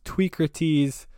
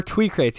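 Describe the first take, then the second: First: Tweecrates said as TWEE-kruh-teez, rhyming with Socrates; name's actual pronunciation. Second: Tweecrates said as TWEE-krayts, two syllables; common mistaken pronunciation. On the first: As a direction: draw out Tweecrates slowly, ending in "teez". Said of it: "asking how your name's pronounced". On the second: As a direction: end Tweecrates like the word "crates". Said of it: "what most people think it is". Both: Shown as a demonstration.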